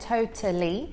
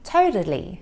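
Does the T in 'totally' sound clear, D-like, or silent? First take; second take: clear; D-like. First: The middle T is a clear, crisp T. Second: The middle T sounds like a soft D. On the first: "I'm pronouncing it with a true T, so you can hear that T there" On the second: "the American T, which sounds more like a soft D"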